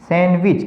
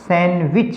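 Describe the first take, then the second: First: The word is said with the d silent. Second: The word is said with the d silent.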